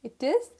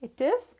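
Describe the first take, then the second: The two takes are said the same way.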